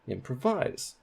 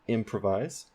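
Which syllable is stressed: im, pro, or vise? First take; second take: vise; im. First: The stress is on the last syllable. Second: The stress is on the first syllable. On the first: The speaker calls it wrong. "Now let's put primary stress on vise" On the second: The speaker calls it right. "The main stress is at the beginning of the word for im on that syllable"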